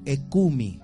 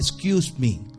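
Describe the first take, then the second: First: It is reduced with a Spanish accent, like 'ecumi'. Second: It is said fully with a native English accent. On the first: "nos escuchan decir a nosotros, ecumi" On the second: "no decimos excuse me"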